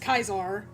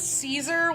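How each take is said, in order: First: The name is said the classical Latin way. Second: The name is said the anglicized English way. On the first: This is the emperor's actual name. The speaker calls it right. "it's Kaisar" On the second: This is the salad's name. The speaker calls it wrong. "I only pronounce it Caesar when it's the salad"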